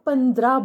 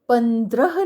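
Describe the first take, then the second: First: The word is pronounced in a common careless form. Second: The word is pronounced in its careful standard form. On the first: The speaker calls it wrong. "हम पंद्रह बोल देते हैं" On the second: The speaker calls it right. "Mostly हम पंद्रह नहीं बोलते हैं"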